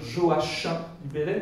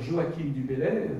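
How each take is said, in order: First: The 'ch' in Joachim has an 'sh' sound. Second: The 'ch' in Joachim has a different sound. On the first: The speaker calls it right. "les CH se prononcent CH" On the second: The speaker calls it wrong. "les Angevins vont mal le prendre"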